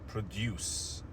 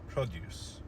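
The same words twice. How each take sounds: First: The stress is on the second syllable. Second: The stress is on the first syllable. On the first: It is the verb, to make something. "in the verb the stress was on the second syllable" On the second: It is the noun. "we shifted the stress to the first syllable"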